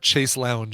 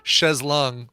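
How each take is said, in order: First: The phrase is said like 'chase lounge'. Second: The phrase is said like 'shays long'. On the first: The speaker calls it wrong. "not chase lounge" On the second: The speaker calls it right. "It's uh, chaise longue"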